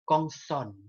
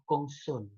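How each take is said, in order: First: The o vowel is open. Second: The o vowel is closed. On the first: The speaker calls it right. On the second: The speaker calls it wrong.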